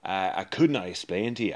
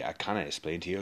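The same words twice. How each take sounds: First: Said in the usual way. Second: Cannot rushed out, softer and fast; quick correction. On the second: Acted. Dwarf quietly correcting himself mid-sentence, fast and soft. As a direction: slip in the fix quickly under the breath. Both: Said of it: "self-correction".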